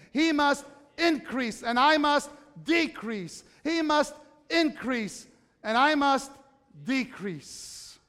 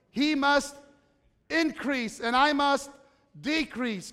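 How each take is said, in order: First: "He must increase and I must decrease" slow, in a chant-like rhythm; said together, unison. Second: "He must increase and I must decrease" with pauses, leaning on "must" and "I"; recited slowly. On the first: Preacher leads the congregation in saying the verse together, slow chant. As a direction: chant it slowly with the crowd, stressing "I". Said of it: "say it with me". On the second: Preacher recites the Baptist's words to the congregation, slow and measured. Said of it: "Do you remember the words?". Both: Shown as a demonstration.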